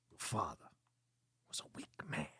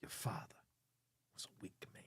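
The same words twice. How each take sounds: First: Low "father", then "was a weak man" breathed out in a whisper; a menacing Christopher Walken line, half whispered; Walken impression. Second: The whole line unvoiced, in a low whisper; whispered Walken line. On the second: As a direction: hiss it like a creepy secret. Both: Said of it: "like an angry Walken?".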